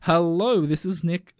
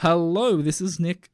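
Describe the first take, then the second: First: It is said in his podcast-presenter voice. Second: It is said in his podcast-presenter voice.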